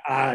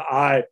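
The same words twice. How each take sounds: First: "I" flattened to a Southern "ah". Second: Said in the usual way. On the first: Shown as a demonstration. Linguist showing the Southern tell, "I" as "ah". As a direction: say "I" as one open vowel, "ah", with no glide. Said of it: "that one thing of saying". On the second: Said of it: "instead of".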